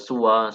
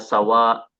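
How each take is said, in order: First: The first vowel is a u sound. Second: The first vowel is an a sound. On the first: "Boleh dibaca suwa seperti halnya kata huda" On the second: "Boleh dibaca sawa seperti halnya kata sama"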